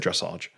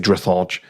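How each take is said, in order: First: It is said in a plain, ordinary accent. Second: It is said in an exaggerated posh accent. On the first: "Can't say dressage" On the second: "He has to say dressage like this"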